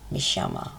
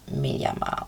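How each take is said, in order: First: "Mishama" with sh in place of y; Argentine sh sound. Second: Said in the usual way. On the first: Shown as a demonstration. Teacher showing the accent for working in Argentina, "Mishama" with sh. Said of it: "adopt the pronunciation". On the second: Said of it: "instead of".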